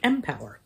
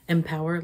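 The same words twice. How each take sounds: First: It sounds like the letter M, then power. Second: It sounds like the ordinary word empower. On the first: "I wasn't saying it that way. I was just like" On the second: "It's MPower, like empower something"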